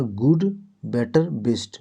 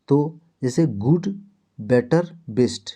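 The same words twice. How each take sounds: First: Slow, drilled गुड, better, best with each word set apart; teacher repeating गुड, better, best slowly and clearly. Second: Said in the usual way. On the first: Shown as a demonstration. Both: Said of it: "क्या बोले?".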